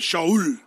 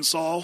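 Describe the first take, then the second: First: The name is said the Hebrew way. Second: The name is said the usual English way. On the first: "That's the Hebrew way of saying it" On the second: "we've been saying Saul for years"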